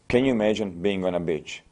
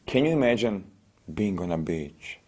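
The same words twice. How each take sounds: First: It is said in a flat, unemotional tone. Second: It is said in a soothing, evocative tone. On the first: The listener feels nothing. The speaker calls it wrong. "I'm not making you feel anything" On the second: The listener is made to feel relaxed. The speaker calls it right. "it was my tonality"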